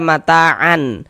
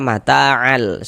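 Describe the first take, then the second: First: The n sound is kept before the l. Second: The n sound merges into the following l. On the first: The speaker calls it wrong. "jangan dibaca mata'an" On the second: The speaker calls it right. "tapi dibaca mata'al"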